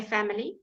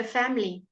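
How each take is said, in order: First: Family in three syllables, FAM-uh-lee; family with every syllable sounded; full middle vowel. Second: Family squeezed to FAM-lee, uh almost gone; quick family with the middle uh dropped; shortened middle vowel. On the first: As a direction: keep the light uh in the middle of family. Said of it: "You can say family, fine". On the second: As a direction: say family fast, as two syllables. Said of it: "often shortened to almost nothing". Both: Shown as a demonstration.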